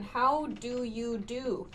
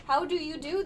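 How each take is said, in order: First: Slow, prim how do you do; formal greeting. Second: Higher, rising prim how do you do; formal greeting. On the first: Teacher shows how formal the greeting sounds. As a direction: say it slow and proper, lightly stiff. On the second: Teacher repeats the formal greeting for learners. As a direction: lift the end politely, lightly posh. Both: Shown as a demonstration. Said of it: "very formal sounding".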